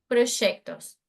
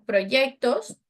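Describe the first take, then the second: First: The consonant before 'ectos' is a 'sh' sound. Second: The consonant before 'ectos' is a 'y' sound. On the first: "aqui na Argentina ... eu falo proyectos"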